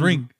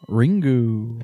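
First: The final u sound is dropped. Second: The final u sound is clearly pronounced. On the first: The speaker calls it right. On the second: The speaker calls it wrong.

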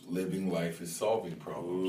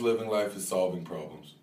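First: It is said more slowly. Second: It is said at normal, faster speed.

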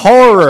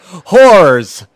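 First: The word sounds like 'horror'. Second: The word sounds like 'whores'. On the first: The speaker calls it right. "You got to say" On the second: The speaker calls it wrong. "You still say it wrong. I can see how he makes that mistake, because you're like"

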